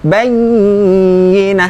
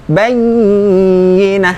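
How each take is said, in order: First: The doubled y is drawn out with a nasal hum. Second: The same.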